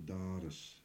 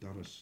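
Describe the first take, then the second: First: The vowel is drawn out long. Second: The vowel is short, like the girl's name. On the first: The speaker calls it right. "you draw that doris out" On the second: The speaker calls it wrong. "you don't say doris like a girl's name"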